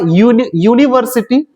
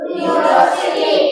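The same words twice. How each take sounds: First: यूनिवर्सिटी starting clearly with a "yoo" sound; sounding out the word. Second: Drawn out, almost whispered; slow breathy model word. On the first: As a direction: break off at यूनि- then say यूनिवर्सिटी in full with a clear "yoo". (यूनिवर्सिटी को "यू" की आवाज़ से साफ़ शुरू करना) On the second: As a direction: breathe the word out slowly for the class. (धीमे, लगभग फुसफुसाकर बोला गया शब्द) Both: Shown as a demonstration. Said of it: "उसका उच्चारण यू हो रहा है".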